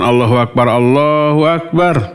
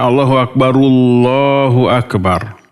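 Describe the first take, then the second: First: The first Akbar ends on a bare 'r'. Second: The first Akbar ends in 'u', linking onward. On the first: The speaker calls it wrong. "Bukan ... Tapi barnya itu disukunkan. Maka tidak boleh" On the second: The speaker calls it right. "Kalau disambung Allahu Akbaru ya"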